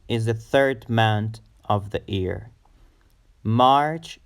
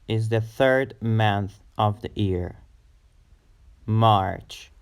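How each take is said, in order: Both takes have the same delivery.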